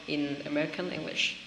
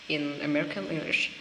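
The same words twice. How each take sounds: Both takes have the same delivery.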